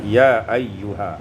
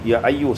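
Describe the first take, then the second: First: The word ends with a final ha syllable. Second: The word stops short without a final ha. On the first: The speaker calls it right. "tetap baca ya ayyuha" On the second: The speaker calls it wrong. "tidak baca ayyu ya ayyu seperti bacaan dari hafaz"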